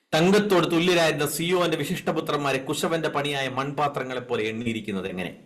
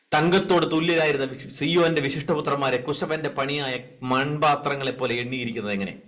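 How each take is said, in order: No difference in how they are said.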